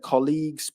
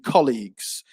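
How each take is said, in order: First: The stress is on the second syllable. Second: The stress is on the first syllable. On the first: The speaker calls it wrong. "you said colleagues, but it should be" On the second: The speaker calls it right. "So stress on the first syllable there"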